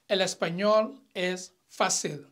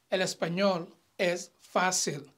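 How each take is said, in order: First: "fácil" with its A unstressed, as fa-SIL; don't lean on the first syllable of "fácil"; A left unstressed. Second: "fácil" stressed on the A, as FÁ-sil. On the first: Teacher showing the wrong take, "fácil" without stress on the A. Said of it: "I did not stress the A". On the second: Teacher showing the accented take, "fácil" with stress on the A. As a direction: lean on the first syllable of "fácil". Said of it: "I stressed the A". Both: Shown as a demonstration.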